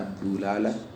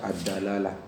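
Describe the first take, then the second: First: The first syllable has the vowel u. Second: The first syllable has the vowel a. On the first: "bisa dibaca ad-dulalah" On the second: "bisa dibaca ad-dalalah"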